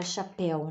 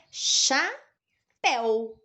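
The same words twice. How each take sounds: First: Said in the usual way. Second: "Chapéu" split slowly, a clear pause between Cha and péu; separação silábica. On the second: Shown as a demonstration. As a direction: say "Chapéu" as two separate syllables. ("Chapéu" dito devagar, com pausa entre as duas sílabas) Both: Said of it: "como a gente separa chapéu".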